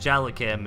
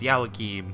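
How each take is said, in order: First: The name begins with a J sound. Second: The name begins with a Y sound. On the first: The speaker calls it wrong. "it's not pronounced Jalakim" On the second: The speaker calls it right. "it's Yawakim"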